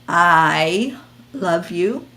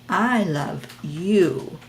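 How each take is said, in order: First: The stress falls on the word I. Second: The stress falls on the word you. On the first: The focus is on the speaker. "The focus is on that person" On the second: The listener feels seen and heard. "And then you really feel seen and heard"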